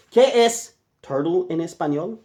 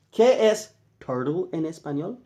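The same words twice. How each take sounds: The two takes are said the same way.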